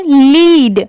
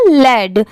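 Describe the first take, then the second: First: लीड drawn out slowly with a long "ee"; long EE in lead. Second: लेड with a short "e", rhyming with "bed"; short E in led. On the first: Teacher contrasting lead with led for learners, लीड with a long slow "ee". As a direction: stretch लीड to rhyme with "need". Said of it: "तो इसे हम लीड पढ़ेंगे". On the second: Teacher explaining the word has no A, लेड with a short "e". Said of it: "इसलिए इसे क्या pronounce करेंगे". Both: Shown as a demonstration.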